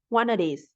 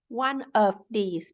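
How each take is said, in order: First: The word 'of' is reduced to 'uh'. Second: The word 'of' is said in full.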